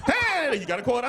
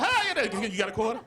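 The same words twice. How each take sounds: First: A high, louder "Hey" calling out, then the ask; louder panhandler call. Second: Bright high "Hi" then a casual ask for a quarter; cheery panhandler ask. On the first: Panhandler calling out to him, high and louder. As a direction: hail him down for a quarter. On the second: Panhandler greeting a passerby, high and cheery. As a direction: mimic a friendly street hustler. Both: Retold or imitated.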